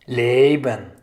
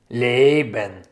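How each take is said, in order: Both takes have the same delivery.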